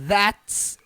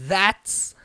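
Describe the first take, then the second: Both takes have the same delivery.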